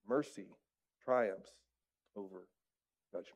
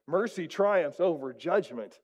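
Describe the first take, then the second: First: It is read in a plain, calm voice. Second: It is said loudly, with exclamatory energy.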